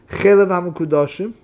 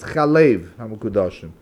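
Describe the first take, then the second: First: The first word begins with an 'e' vowel. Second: The first word begins with an 'a' vowel. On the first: The speaker calls it wrong. "over here the pronunciation is not chelav" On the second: The speaker calls it right. "it's chalev ha-mekudoshim"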